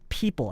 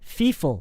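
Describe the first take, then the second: First: The P sounds are said as P sounds. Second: The P sounds are said as F sounds. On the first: The speaker calls it right. "instead of people" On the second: The speaker calls it wrong. "I've even heard people say feeful instead of people"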